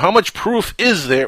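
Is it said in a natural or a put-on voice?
natural. It is said in his natural voice.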